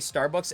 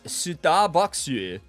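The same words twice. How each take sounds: First: It is said with ordinary English pronunciation. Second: It is said the Korean way, with extra syllables.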